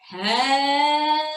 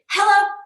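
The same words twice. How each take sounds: First: It is said very slowly. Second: It is said very fast.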